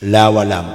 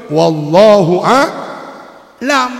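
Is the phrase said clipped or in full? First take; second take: clipped; full. First: The phrase is clipped into a short slurred form. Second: The phrase is said fully with every syllable. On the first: The speaker calls it wrong. "Padahal yang betul wallahu a'lam" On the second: The speaker calls it right. "yang betul"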